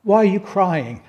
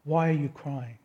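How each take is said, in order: First: Lightly raised, slightly puzzled asking; a plain, curious question; questioning angels. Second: Gentle Jesus. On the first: Angels asking weeping Mary at the tomb, lightly puzzled. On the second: Jesus asking weeping Mary at the tomb, soft and tender. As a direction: ask it as if comforting a grieving friend. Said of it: "Jesus says to Mary". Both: Acted.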